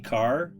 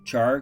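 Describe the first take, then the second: First: The word begins with a k sound. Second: The word begins with a ch sound. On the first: "A lot of people say car" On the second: "We pronounce the ch"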